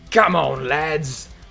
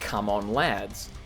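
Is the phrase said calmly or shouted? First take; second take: shouted; calmly. First: The phrase is shouted with loud, rowdy energy. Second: The phrase is said in a calm, plain voice. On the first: The speaker calls it right. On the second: The speaker calls it wrong.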